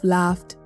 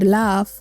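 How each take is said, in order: First: The word ends with a clear t sound. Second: The word ends without the final t sound. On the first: This is the standard way of saying it. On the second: This is the Creole way of saying it.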